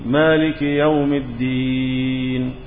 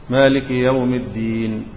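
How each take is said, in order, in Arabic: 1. الحرف الذي قبل النون الأخيرة يُمَدّ مدًّا متوسطًا. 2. الحرف الذي قبل النون الأخيرة يُمَدّ مدًّا قصيرًا. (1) "كم حركة؟ أربعة. بيسموه التوسط" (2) "مديناه كم حركة؟ جوز"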